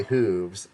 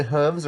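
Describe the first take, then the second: First: "hooves" with the long oo of "food"; long-vowel hooves. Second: "hooves" with the short oo of "book"; short-vowel hooves. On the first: Host offers viewers the other pronunciation, "hooves" with a long oo. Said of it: "thumbs down if you say". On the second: Host polls viewers on pronunciation, "hooves" with a short oo. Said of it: "thumbs up if you say hooves". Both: Shown as a demonstration.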